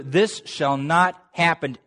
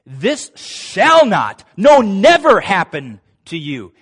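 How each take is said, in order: First: Said in the usual way. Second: Slow, much louder, NEVER hammered; louder, drawn-out This shall not, no, never; emphatic denial. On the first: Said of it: "if we could say it in English". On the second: Shown as a demonstration. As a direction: pound each word, no, never. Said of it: "here's how the Greek has it".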